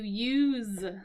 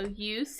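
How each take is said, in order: First: The word ends with a buzzing Z sound. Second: The word ends with a hissing S sound. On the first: It is the verb meaning to employ something. "it has a Z sound there" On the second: It is the noun meaning purpose. "when it's a noun, it has an S sound"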